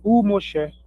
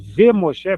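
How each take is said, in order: First: The conjunction before Moshe is pronounced 'u'. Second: The conjunction before Moshe is pronounced 've'. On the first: The speaker calls it right. "Passa a ser U" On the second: The speaker calls it wrong. "em vez de ser V Moshe"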